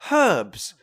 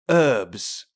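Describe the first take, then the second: First: The word begins with a clear H sound. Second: The word begins without an H sound. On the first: "British people say herbs because there's a fucking H in it" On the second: "Americans say herbs"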